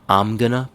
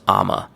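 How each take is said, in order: First: The phrase is only lightly reduced. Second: The phrase is squeezed into two syllables. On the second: "I'm gonna becomes I'ma"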